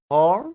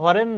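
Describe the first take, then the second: First: The word is said as one syllable. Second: An extra vowel splits the word into two syllables. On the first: The speaker calls it right. "হরেন না, হর্ন" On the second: The speaker calls it wrong. "বাঙালিরা অনেকে উচ্চারণ করে বলে হরেন"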